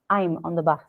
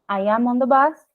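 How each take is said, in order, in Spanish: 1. "I am" se contrae en una sílaba. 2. Las dos palabras "I am" se dicen completas. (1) "si tengo la contracción" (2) "si yo no uso contracción, pronuncio, eh, digo todo"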